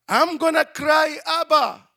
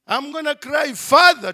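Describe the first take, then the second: First: High, loud wail for his father; a child's loud cry for dad. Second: High, loud call for Father; a child's loud cry for Father. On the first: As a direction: call out like a scared little kid. Child crying out for daddy. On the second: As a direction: call out like a scared little kid again. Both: Retold or imitated.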